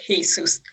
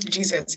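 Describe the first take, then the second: First: The name begins with an H sound. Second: The name begins with a J sound. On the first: "Let's say it's spelled like with an H" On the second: "let's just say it's not Jesus"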